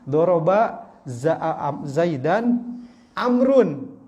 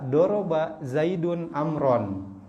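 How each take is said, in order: First: Zayd ends in -an, Amr ends in -un. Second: Zayd ends in -un, Amr ends in -an. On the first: Zayd is the one being hit. "ketika dibaca Zaidan" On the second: Zayd is the one doing the hitting. "Zaidun itu dhammah... Dhammatain"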